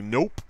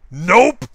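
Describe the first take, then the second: First: Said in the usual way. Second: Higher, louder gleeful NOPE; loud flat refusal. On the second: Pretend. Imagined newspaper staff refusing him, loud gleeful no. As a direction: slam the door with one word. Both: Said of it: "and they'll be like".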